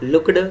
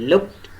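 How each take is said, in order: First: The -ed ending is said as an extra syllable. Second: The -ed ending is a plain t sound. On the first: The speaker calls it wrong. "instead of looked" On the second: The speaker calls it right. "it should be looked"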